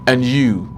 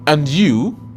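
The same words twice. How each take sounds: First: The voice falls at the end. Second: The voice rises at the end. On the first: It returns the wish without asking anything. "this is a statement. You will notice that the tone falls when it is a statement" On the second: It asks the other person a question. "this is a question"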